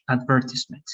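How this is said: It is said with a British pronunciation. "that's the British"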